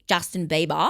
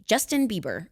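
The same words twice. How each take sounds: First: Mock Australian accent. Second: "Justin Bieber" with plain, un-Australian vowels; corrected pronunciation. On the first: [name] objecting to Australians' pronunciation, mock Australian accent. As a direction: say the name in a put-on Australian twang. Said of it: "that's what I think it sounds like". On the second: Acted. [name] telling Australians his name, carefully pronounced. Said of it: "you now have to call me".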